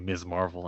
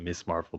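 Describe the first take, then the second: First: The first word ends with a buzzing z sound. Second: The first word ends with a hissing s sound. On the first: The speaker calls it right. "I hope they say her name properly" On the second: The speaker calls it wrong. "and not"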